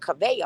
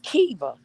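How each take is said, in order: First: The name is said in the older Kavea form. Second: The name is said in the shorter Kiva form. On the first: The speaker calls it wrong. "all this time I just been calling her Kavea" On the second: The speaker calls it right. "it's Kiva"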